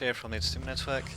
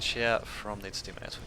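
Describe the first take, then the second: First: The phrase is spoken at a quick pace. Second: The phrase is spoken at a slower pace. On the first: The speaker calls it wrong. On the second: The speaker calls it right.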